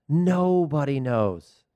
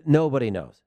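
First: "Nobody knows" stretched out very slowly, word by word; drawn-out emphasis. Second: Said in the usual way. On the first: Real, not acted. Host on unpredictable Champions League odds, "Nobody knows" slowly stretched for emphasis. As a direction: draw out "Nobody knows" for weight.

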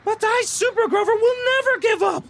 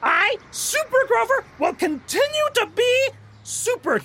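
First: High, loud superhero boast; heroic proclamation. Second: Heroic proclamation. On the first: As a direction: proclaim it like a caped hero. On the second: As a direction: announce it proudly like a caped hero. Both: Acted. Hero's defiant proclamation.

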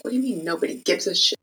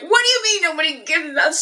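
First: Quick, hushed disbelieving retort; retold indignation. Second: Much higher, indignant outburst; retold outrage. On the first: Retelling a reply to the designer, hushed fast disbelief. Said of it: "I was so mad". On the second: Recalling her younger self's indignant reply, pitched high. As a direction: squeak it out in stunned outrage. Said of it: "I was pissed".

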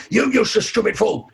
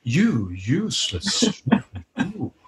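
First: Mock angry, a bit higher; angry insult. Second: Slow, soft, seductive purr breaking into a laugh; sexy voice. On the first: Hypnotist demonstrating an angry insult, mock angry. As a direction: snap the insult at someone. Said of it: "somebody says something really angry". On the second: Hypnotist turning an insult into a sexy purr. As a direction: make the insult sound seductive. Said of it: "when we make it sound sexy". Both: Shown as a demonstration.

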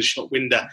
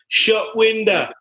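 First: Said in the usual way. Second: High-pitched, slow manager catchphrase; Harry Redknapp catchphrase. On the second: Acted. Host quoting a football manager on a player, drawn-out high impression. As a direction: draw it out high, like a football manager's stock line. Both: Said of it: "as Harry Redknapp would once say".

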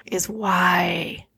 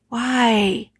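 First: Hushed, breathless whisper of "why?"; a real, aching whisper on "why?". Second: Said in the usual way. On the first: Real, not acted. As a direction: whisper "why?" as if afraid to ask it aloud. Asking her late daughter why.

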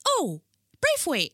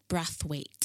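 First: High, drawn-out "Braithwaite" with long "ay"; mimicked mispronunciation. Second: "Brathwaite" with a short a, as in "bath"; correct name pronunciation. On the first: Mimicking people who get her name wrong, high slow "Braithwaite". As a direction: parrot "Braithwaite" back slowly and high. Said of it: "and they're like". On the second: Shown as a demonstration. Woman introduces herself by surname, "Brathwaite" with short a. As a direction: say "Brathwaite" evenly, first syllable short "brath". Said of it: "My name is".

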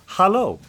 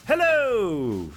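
First: "hello" as Dutch "hallo", high then falling; short, high Dutch-style "hello". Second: "Hello" high, drawn out and falling; stretched, high-pitched "Hello"; English hello. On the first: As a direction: say "hello" the Dutch way, with an "ah" in the first syllable. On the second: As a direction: sing out a long English "Hello". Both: Retold or imitated. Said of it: "in my language".

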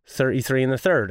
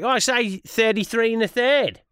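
First: "Thirty-three and a third" in own Irish voice, every TH sounded; lower, plainly enunciated TH in "Thirty-three and a third"; careful TH. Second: Higher-pitched mock Australian; put-on Australian twang, pitched up; Australian accent. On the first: Retold or imitated. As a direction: say "Thirty-three and a third" low, with clear TH's. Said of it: "And I go". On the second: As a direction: imitate Australians showing off their "thirty-three". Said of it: "over in Australia, mate, they were all like".

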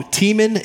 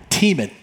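First: Said in the usual way. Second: Tiemann said as TEE-mun, stress on the first syllable; name pronounced. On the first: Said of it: "my last name is pronounced Tiemann". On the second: Shown as a demonstration. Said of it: "That's how you say the last name".

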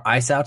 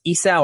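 First: "Isao" starting with an EYE sound; alternative pronunciation. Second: "Isao" starting with an EE sound; alternative pronunciation. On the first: Host unsure of the director's name, tries "Isao" as eye-SOW. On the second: Host unsure of the director's name, tries "Isao" as ee-SOW. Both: Shown as a demonstration. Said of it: "don't know how to pronounce that".

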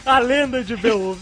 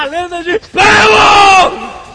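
First: Said in the usual way. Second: Epic shouted title. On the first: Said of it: "Você tem que falar". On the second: Shown as a demonstration. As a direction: build up and bellow BEOWULF. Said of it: "Você não pode falar".

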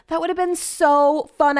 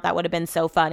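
First: Slow, higher, wistful and annoyed; frustrated regret. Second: Said in the usual way. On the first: Real, not acted. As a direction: mourn the missed chance. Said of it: "I'm so annoyed".

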